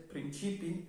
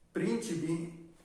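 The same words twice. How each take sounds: First: "principi" stressed on the middle I, prin-CI-pi; stress on second I. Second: "Principi" stressed on its first I, PRIN-ci-pi. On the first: Teacher showing the word for principles, principi stressed on second I. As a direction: put the weight mid-word in "principi". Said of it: "Principi está en la segunda I". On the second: Teacher showing the princes word, Principi stressed on first I. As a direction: lean on the opening syllable of "Principi". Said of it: "el acento está en la primera I". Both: Shown as a demonstration.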